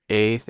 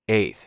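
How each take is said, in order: Both takes have the same delivery.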